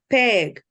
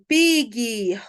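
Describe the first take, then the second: First: The vowel is said in an English-like way. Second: The vowel is said in a Portuguese-like way. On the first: This is the model for children to copy. The speaker calls it right. "a pronúncia correta não é assim, né? É peg" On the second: This is how children hear it from others. The speaker calls it wrong. "eles vão ouvir gente falando pig"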